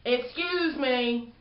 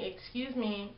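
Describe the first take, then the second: First: Slow drawn-out excuse me with attitude; snippy drawn-out excuse me; rude excuse me. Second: Said in the usual way. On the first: Shown as a demonstration. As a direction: stretch excuse like you're annoyed. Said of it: "like that". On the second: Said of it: "It's a difference between".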